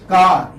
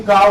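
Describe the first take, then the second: First: Loud "car" with the final R sounded; R pronounced. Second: "car" with an open vowel, no R; silent final R. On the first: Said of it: "You never say". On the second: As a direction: leave the R off the end of "car". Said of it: "you say car only". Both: Shown as a demonstration.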